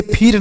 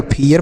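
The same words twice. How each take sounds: First: फिर said as "phir", one syllable; no "yer" glide in फिर; wrong one-syllable reading. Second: फियर said as "phee-yer"; correct two-syllable reading. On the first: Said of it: "इसे फिर नहीं पढ़ेंगे". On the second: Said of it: "फियर पढ़ा जाएगा". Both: Shown as a demonstration.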